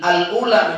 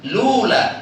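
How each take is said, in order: First: The word starts with an 'a' vowel before 'l'. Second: The word starts directly with the 'l' sound. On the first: It keeps the connecting hamza at the start. The speaker calls it wrong. "kalau nggak pakai hamzah wasl" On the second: The connecting hamza is dropped. The speaker calls it right. "Al ula menjadi lula"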